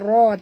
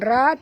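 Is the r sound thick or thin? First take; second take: thick; thin. First: The r sound is heavy and thick. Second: The r sound is light and thin. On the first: The speaker calls it right. "tapi ra tebal" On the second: The speaker calls it wrong. "bukan ra"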